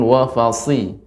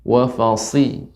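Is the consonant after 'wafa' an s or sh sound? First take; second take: s; s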